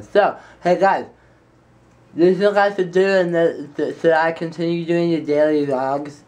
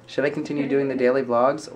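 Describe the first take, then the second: First: Tongue out. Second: Said in the usual way. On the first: Pretend. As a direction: stick your tongue out while talking. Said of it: "with your tongue sticking out the whole time". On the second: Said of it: "I can't do that".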